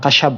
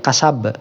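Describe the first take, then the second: First: The middle consonant is an sh sound. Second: The middle consonant is a plain s sound. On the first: The speaker calls it wrong. "bukan kasyab itu ya" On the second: The speaker calls it right.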